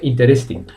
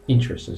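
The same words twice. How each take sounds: First: The stress falls on a later syllable. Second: The stress falls on the first syllable. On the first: The speaker calls it wrong. "They don't say interesting" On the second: The speaker calls it right. "the correct pronunciation is interesting. So imagine there is a tilde on the first I"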